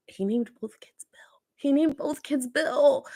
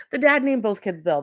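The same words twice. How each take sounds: First: Stunned whisper. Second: Said in the usual way. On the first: Real, not acted. To viewers about the dad's secret family, a shocked whisper. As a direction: hush it like a scandal, higher and slower.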